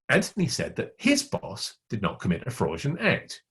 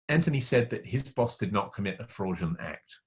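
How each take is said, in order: First: The word "his" carries the main stress. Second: No word stands out; the delivery is neutral. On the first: Someone else's boss did it. "It wasn't his boss, it was somebody else's boss" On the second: No opinion is conveyed. "I haven't given you any information about what I think or what I feel"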